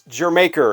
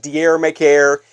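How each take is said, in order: First: It sounds like the word 'Jamaica'. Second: It sounds like the words 'dier maker'. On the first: The speaker calls it right. "it's Jamaica" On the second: The speaker calls it wrong. "it's not Dier Maker"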